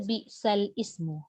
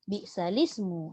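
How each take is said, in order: First: The second word starts with a separate vowel, ismu. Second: The l links straight into the s, lismu. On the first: The speaker calls it wrong. "jangan baca bi'sal ismu" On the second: The speaker calls it right. "lam itu dibariskan dengan baris bawah tu untuk membunyikan dia terus pada lis tu"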